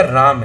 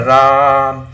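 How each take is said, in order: First: Said in the usual way. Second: राम with a very long, loud held aa; stretched RAM. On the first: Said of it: "का simple क्या". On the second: Shown as a demonstration. Teacher showing how the vowel is stretched, drawn out. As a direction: hold the vowel of राम steady for seconds. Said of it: "लेकिन वो खींच रहा".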